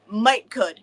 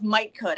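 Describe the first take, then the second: First: "Might could" in a Southern drawl, "might" stressed. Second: Lightly voiced therapist saying "Might could", "might" stressed; imitating therapist. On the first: Shown as a demonstration. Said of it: "And I'm like". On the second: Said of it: "She says".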